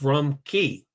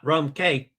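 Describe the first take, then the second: First: Cay is pronounced like the word key. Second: Cay is pronounced like the letter K. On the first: The speaker calls it right. "Key is the proper pronunciation of C A Y" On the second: The speaker calls it wrong. "not like they do it on Coco Cay"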